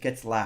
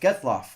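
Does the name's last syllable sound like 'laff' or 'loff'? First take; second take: laff; loff. First: The last syllable sounds like 'laff'. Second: The last syllable sounds like 'loff'. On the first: This is how the broadcaster says it. The speaker calls it wrong. "I don't know why N B C always says Getzlaff" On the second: This is the player's real name. The speaker calls it right. "it's like it's Getzloff"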